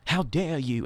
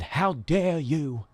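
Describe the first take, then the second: First: Said in the usual way. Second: Slow, dragged-out imitation of Greta's outraged line; lightly voiced mock of the climate speech; Greta impression. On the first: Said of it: "famous for saying". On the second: Host imitating Greta Thunberg's famous rebuke, slow. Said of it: "when she said".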